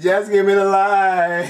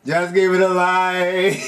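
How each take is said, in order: First: Slow, higher patois through a laugh; laughing Jamaican accent. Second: Slow, higher Jamaican patois; Jamaican accent. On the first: Player copying the line again, laughing. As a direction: repeat it Jamaican style, chuckling. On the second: Player copying the game's line in a Jamaican accent. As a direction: drawl the line dancehall style. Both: Retold or imitated. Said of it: "I can't do the accent right".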